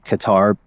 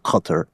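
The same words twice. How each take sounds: First: It is pronounced the common Anglicized Western way. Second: It is pronounced closer to the native local way. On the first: Listeners in the West will understand it. "when you pronounce it uh, in the Western world, it's okay to say Qatar" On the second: This is closer to how locals say it. "the correct pronunciation, from what I understand, is something more like Qatar"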